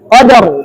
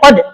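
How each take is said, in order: First: The final r sound is clearly pronounced. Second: The final r sound is left out. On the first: The speaker calls it right. "nggak boleh hilang" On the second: The speaker calls it wrong. "Nggak boleh qad aja"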